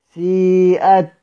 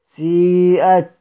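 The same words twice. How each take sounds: The two takes are said the same way.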